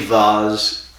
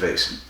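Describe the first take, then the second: First: It is said with an English vowel, like vahz. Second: It is said with an American vowel, like vayse.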